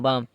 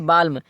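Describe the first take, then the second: First: The L sound is silent before the M. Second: The L sound is pronounced before the M. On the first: The speaker calls it right. "यल क्या हो जाएगा, silent हो जाएगा" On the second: The speaker calls it wrong. "पढ़ने में तो आता है बाल्म"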